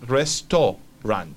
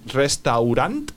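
First: The vowel after the t sounds like 'oh'. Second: The vowel after the t sounds like 'ow'. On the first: The speaker calls it right. "sino se va a decir restaurant" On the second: The speaker calls it wrong. "no se va a decir restaurant"

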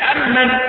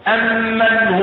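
First: The m sound is single and short. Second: The m sound is doubled and held. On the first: "لو فكيت التشديد يبقى أمن" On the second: "القراءة المشهورة"

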